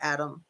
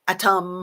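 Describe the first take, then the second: First: The name is said casually with a soft middle. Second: The name is enunciated with a crisp middle t.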